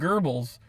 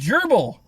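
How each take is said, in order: First: The word is pronounced to sound like 'Goebbels'. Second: The word is pronounced as a plain 'gerbil'. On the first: The speaker calls it wrong. "he was calling him Goebbels" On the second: The speaker calls it right. "I think you mean gerbil"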